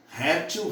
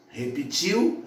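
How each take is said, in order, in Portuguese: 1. A tônica está na penúltima sílaba. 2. A tônica está na última sílaba. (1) "Se forem pronunciadas como paroxítonas" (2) "se elas forem pronunciadas como oxítonas"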